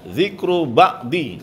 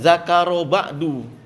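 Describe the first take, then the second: First: The first word has an 'i' vowel. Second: The first word has an 'a' vowel. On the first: The speaker calls it right. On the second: The speaker calls it wrong.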